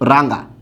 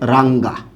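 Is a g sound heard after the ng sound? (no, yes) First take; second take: no; yes. First: The ng sound has no g after it. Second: A clear g sound follows the ng sound. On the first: "এটা ঠিক আছে" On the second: "আপনাকে গটা উচ্চারণ করতে হবে"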